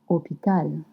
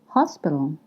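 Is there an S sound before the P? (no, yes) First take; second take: no; yes. First: No S sound is pronounced before the P. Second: An S sound is pronounced before the P. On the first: This is the modern form of the word. "but we say hôpital" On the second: This is the old form of the word. "we used to say hospital"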